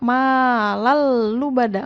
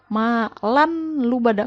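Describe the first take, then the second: First: The n sound merges into a doubled l. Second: The n sound is pronounced before the l. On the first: The speaker calls it right. "hukumnya adalah idgham, memasukkan" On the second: The speaker calls it wrong. "nggak boleh dibaca malan lubada"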